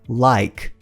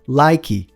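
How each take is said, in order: First: The word ends cleanly on the k sound. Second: The word ends with an extra i vowel. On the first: The speaker calls it right. "mas termina com k, k" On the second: The speaker calls it wrong. "A gente tem a tendência de falar like"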